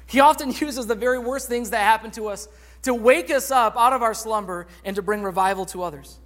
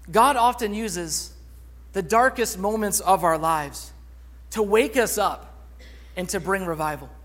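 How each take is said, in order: First: Said in the usual way. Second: Slow, weighted, each phrase set apart with pauses; slow emphasis. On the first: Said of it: "same point restated at normal pace". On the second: Shown as a demonstration. Preacher driving home the main point, slow and emphatic. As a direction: lean on "God" and "wake" deliberately. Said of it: "preacher lands sermon point slowly".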